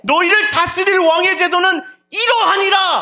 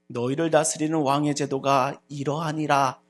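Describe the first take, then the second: First: It is said with intense, conflicted passion. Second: It is said in a plain, ordinary voice. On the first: The speaker is torn and pleading. The speaker calls it right. "그 마음에 갈등이 일어나" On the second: It is a routine announcement. The speaker calls it wrong. "이와 같이 평범하게 외쳐지는 소리였을까요?"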